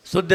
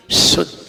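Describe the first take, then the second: First: शुद्ध said as "suddh", with a weak "s"; wrong plain "s". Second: शुद्ध with a strong hissed "sh"; whistling sibilant. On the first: Teacher shows the mistake, शुद्ध as "suddh". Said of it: "शुद्ध नहीं". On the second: Teacher corrects the mistake, whistling "sh" in शुद्ध. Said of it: "सीटी आती है". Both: Shown as a demonstration.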